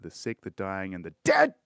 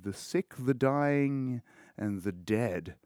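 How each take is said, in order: First: It is said forcefully, with strong conviction. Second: It is said flatly, without much force. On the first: The speaker calls it right. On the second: The speaker calls it wrong.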